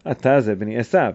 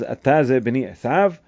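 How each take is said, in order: First: It is said as a falling statement. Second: It is said as a rising question.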